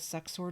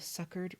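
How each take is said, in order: First: The second syllable sounds like 'sore'. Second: The second syllable sounds like 'ker'. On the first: The speaker calls it wrong. "I always thought that word was pronounced suck-sore" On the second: The speaker calls it right. "it's pronounced succor"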